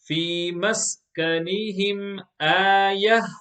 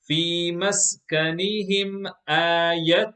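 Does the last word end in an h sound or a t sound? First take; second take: h sound; t sound. First: The last word ends in an h sound. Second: The last word ends in a t sound. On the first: The reader stops on this word. "If you stop on it" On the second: The reading continues without stopping. "The first time I shall read it exactly as it is written"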